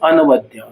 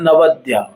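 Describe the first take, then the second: First: The opening 'a' vowel is pronounced before 'na'. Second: The opening 'a' vowel is silent, starting with 'na'. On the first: This is the form when the sandhi is split apart. "और जब संधि विच्छेद करेंगे तो मैं अनवद्या" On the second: This is how it is recited in the verse. "तो श्लोक में मैं नवद्या"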